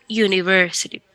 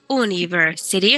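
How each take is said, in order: First: University starting with a yu sound; right English university. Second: University said like Spanish universidad; wrong Spanish-style university. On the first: Teacher shows students the English yu-niversity. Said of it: "sino university". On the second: Teacher shows students the wrong way, Spanish-style university. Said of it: "no decimos university ... como universidad". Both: Shown as a demonstration.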